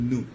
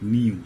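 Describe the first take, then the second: First: It is said 'noo' with no y sound. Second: It is said 'nyoo' with a y sound. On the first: "perfect উচ্চারণ যদি হচ্ছে নু" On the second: "তোমাদের বোঝার সুবিধার্থে বললাম"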